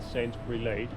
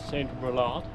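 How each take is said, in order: First: The whole name sounds like one language. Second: Half the name sounds French, half English. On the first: The speaker calls it wrong. "and not" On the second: The speaker calls it right. "you pronounce it the way you'd pronounce it in French uh, and the other half in English"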